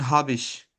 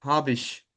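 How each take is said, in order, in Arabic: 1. الكلمتان تتداخلان وتُنطقان كمقطع واحد. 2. الكلمتان تتداخلان وتُنطقان كمقطع واحد.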